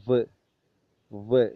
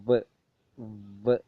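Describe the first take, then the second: Both takes have the same delivery.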